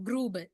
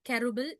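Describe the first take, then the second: First: The first syllable has an 'oo' vowel. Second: The first syllable has an 'e' vowel. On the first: The speaker calls it right. "குரூபிள்னு சொல்லித்தான் pronounce பண்ணுவோம்" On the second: The speaker calls it wrong. "எக்ஸாக்டான pronunciation வந்துட்டு கெருபிள் இல்ல"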